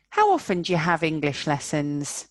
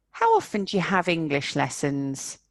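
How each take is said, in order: First: "do you" squashed to "ja" again. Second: "do you" squashed to "ja". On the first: Teacher repeating, "do you" reduced to "ja". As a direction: run "do you" into "ja". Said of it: "Listen again". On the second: Teacher showing reduced "do you" as "ja". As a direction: say "How often ja have English lessons". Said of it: "It gets really squashed". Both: Shown as a demonstration.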